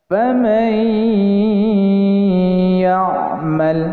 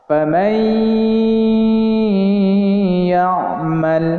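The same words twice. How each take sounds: No difference in how they are said.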